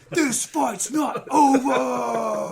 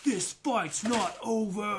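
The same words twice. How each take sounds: First: It is said with strong, dramatic intensity. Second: It is said in a calm, plain narrating tone.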